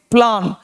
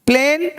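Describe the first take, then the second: First: प्लान with an open "plaan" vowel; प्लान with the broad vowel. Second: प्लेन with a held "ay"; प्लेन with the closed vowel; long "ay" vowel. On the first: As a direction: say प्लान as "plan", opened wide. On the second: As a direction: say प्लेन as "playn". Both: Shown as a demonstration. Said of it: "वहाँ ए और यहाँ ए".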